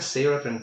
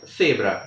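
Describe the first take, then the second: First: It begins with a plain 's' sound. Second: It begins with a lisped 'th' sound. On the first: This is how it is said in Latin America. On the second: This is how it is said in Spain. "em espanhol da Espanha"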